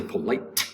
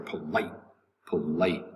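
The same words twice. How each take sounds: First: "polite" with a sharp, separately popped T at the end; released final T. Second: "polite" with the final T swallowed, lower and softer; disappearing T. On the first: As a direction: finish "polite" on an exaggerated T. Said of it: "You don't say polite". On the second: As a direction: stop "polite" short without releasing the T. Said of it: "the T will somewhat disappear". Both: Shown as a demonstration.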